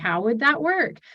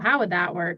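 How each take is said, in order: First: The question sounds curious and open. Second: The question sounds accusatory and dismissive. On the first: The asker genuinely wants to understand the idea. The speaker calls it right. "it was a very like curious tone" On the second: The asker doubts the idea and shuts the person down. The speaker calls it wrong. "those feel more accusatory"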